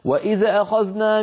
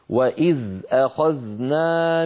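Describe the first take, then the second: First: The dh sound bounces with a short echo vowel. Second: The dh sound is held still without echo. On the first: The speaker calls it wrong. "نسمع كثيرا من بعض إخواننا" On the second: The speaker calls it right. "لابد من إسكانهما دون قلقلة"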